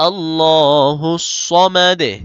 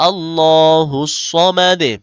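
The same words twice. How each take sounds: No difference in how they are said.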